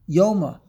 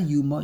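First: The first vowel is an 'o' sound. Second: The first vowel is a 'u' sound. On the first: This is the standard pronunciation. The speaker calls it right. "the correct pronunciation is Yoma" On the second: This is the common yeshiva pronunciation. The speaker calls it wrong. "not Yuma. Yuma is yeshivish"

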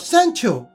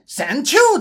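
First: It is said with a standard English pronunciation. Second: It is said with a Henan Chinese accent. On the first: "正规的英语呢是叫做Central Station" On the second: "他讲出来的英语呢，很有河南味"

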